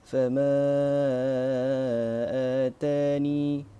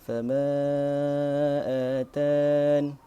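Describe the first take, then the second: First: The phrase ends with a final vowel. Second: The phrase ends on a stopped n sound. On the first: "ithbat huruf ya ketika waqaf" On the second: "hazaf ya, iaitu waqaf dengan huruf nun dimatikan"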